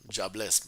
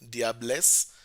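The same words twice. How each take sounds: First: It is said sounding like 'jobless'. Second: It is said with a French-style pronunciation. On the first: "but it's pronounced like it's like somebody saying" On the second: "it's from French, like the female devil"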